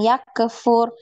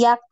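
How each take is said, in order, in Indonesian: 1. Bunyi k diikuti bunyi vokal tambahan. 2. Bunyi k dilepas hanya dengan hembusan napas yang mengalir. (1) "jangan yak kefur" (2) "nafasnya aja yang ini ngalir"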